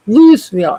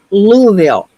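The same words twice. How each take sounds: First: Louisville with a clear S, "Lewis-vill"; mispronounced Louisville. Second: Louisville with a silent S, "LOO-vill"; local pronunciation. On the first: Quoting locals correcting a newcomer, mispronounced Louisville with the S sounded. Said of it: "It's not pronounced Louisville". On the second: Correcting people on the town's name, Louisville pronounced with silent S. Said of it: "No, it's pronounced Louisville". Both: Retold or imitated.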